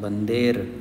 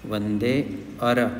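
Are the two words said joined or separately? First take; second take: joined; separately. First: The words are run together into one word. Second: The words are said as two separate words. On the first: "बंदेर बोल सकते हैं इसको" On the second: "अर भी बोल सकते हैं"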